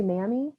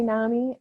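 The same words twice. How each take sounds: First: "nami" with a flat a as in cat, NA-mee; Southern nami. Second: "nami" with an open ah vowel, NAH-mee; Northern nami. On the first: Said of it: "some people in the South say nami". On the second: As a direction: say "nami" as NAH-mee, stress on the first syllable. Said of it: "whether you call it nami or nami". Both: Shown as a demonstration.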